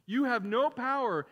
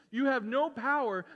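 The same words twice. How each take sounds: The two takes are said the same way.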